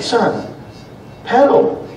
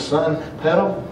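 First: Sharp, high, urgent order to pedal; firm command. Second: Soft, slow, calm order to pedal; God calmly telling his son to pedal; God gently guiding his son on the bike, softly; gentle command. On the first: Retold or imitated. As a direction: snap at the boy to pedal. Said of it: "I said". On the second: Pretend. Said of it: "he turns around and says".

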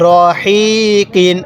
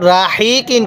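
First: রহিকিন very slow, starting on a rounded "ro", long হি. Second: রাহিকিন with an open "ra" at the start; mistaken RA. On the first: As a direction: draw out রহিকিন with a heavy "ro", not "ra". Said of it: "র জবর রা পড়বেন না". (রহিকিন টেনে টেনে, গোল "র" দিয়ে শুরু) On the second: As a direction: begin রাহিকিন on thin "ra" instead of rounded "ro". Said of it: "রাহিকিন কেউ পড়বেন না". (রাহিকিন, ভুল করে খোলা "রা" দিয়ে শুরু) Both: Shown as a demonstration.

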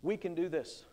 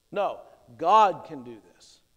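First: Said in the usual way. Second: "God" hit loud and low; stress on GOD. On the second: Shown as a demonstration. Preacher corrects Caleb's words, stressing "God". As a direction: lean hard on "God".

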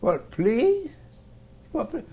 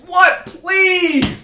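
First: Quoting him back softly; mimicking. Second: Loud high polite answer; shouted what please. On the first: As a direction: repeat his words, mocking a little. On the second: Acted. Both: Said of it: "that's how you should have answered".

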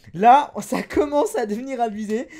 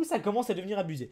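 First: "Là" hit loudly, then each word pushed out; emphatic repeat. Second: Said in the usual way. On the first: Real, not acted. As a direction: punch "Là" and keep "commence à devenir abusé" loud.

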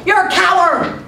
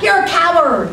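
First: High-pitched acted insult; aggravated yell. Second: Loud, high yell sent back; booming echo. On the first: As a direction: holler it like an annoyed boy. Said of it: "got aggravated and yelled". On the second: Acted. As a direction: boom the insult back as an echo. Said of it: "The voice boomed back".

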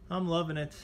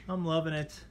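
The two takes are said the same way.

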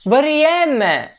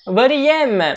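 First: Varieme said high, stress on the final syllable; stress on ending. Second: Said in the usual way. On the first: Shown as a demonstration. Teacher presenting a new Greek verb, high and stressed. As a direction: lift the word Varieme and land its ending. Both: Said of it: "Hep vurgu sonda".

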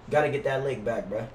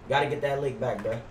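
The two takes are said the same way.

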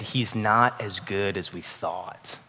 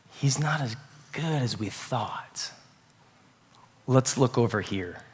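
First: Quiet doubting murmur. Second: Softer, slow and hushed; hushed doubt. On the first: Adam and Eve's doubting hearts. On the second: Adam and Eve doubting God to each other, hushed murmur. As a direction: murmur it like a dangerous secret. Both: Retold or imitated.

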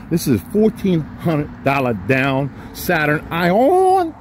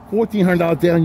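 First: Slow, stretched-out price announcement; drawn-out sales pitch. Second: Said in the usual way. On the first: Acted. Dealer slowly announcing the Saturn price to viewers, drawn out. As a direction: savor every word of the deal, slowly.

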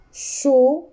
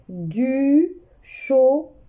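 First: Said in the usual way. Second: "du chocolat" said slowly, syllable by syllable; teacher slowing down for pupils; slow repeat. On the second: Shown as a demonstration. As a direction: draw out "du chocolat". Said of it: "Je répète".

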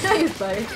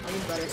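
First: I use butter said through a laugh. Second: Said in the usual way. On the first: Real, not acted. Repeats line, second time laughing.

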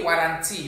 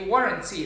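First: "warranty" as wah-TAN-tee; flat a sounds in "warranty", weight on the middle; wrong pronunciation shown. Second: "warranty" as WAW-run-tee; first vowel of "warranty" like the aw in awesome; corrected pronunciation. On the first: Diction teacher showing what not to say, mistaken pronunciation. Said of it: "We don't say warranty". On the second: Diction teacher correcting the class on warranty, careful pronunciation. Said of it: "Like awesome". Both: Shown as a demonstration.

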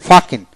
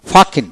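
Both takes have the same delivery.

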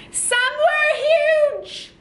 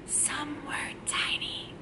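First: High, loud drawn-out call; big high shout for children to copy; really loud. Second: Whisper. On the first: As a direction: belt it out as if huge. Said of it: "we're gonna be really loud". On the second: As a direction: whisper it as if tiny. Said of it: "We gotta whisper that part". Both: Shown as a demonstration.

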